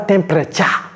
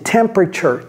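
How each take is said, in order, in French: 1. Le mot se prononce avec des sons durs. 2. Le mot se prononce avec des sons doux. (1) "Ne dites pas temperature" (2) "Non, c'est temperature. Soyez doux avec l'anglais"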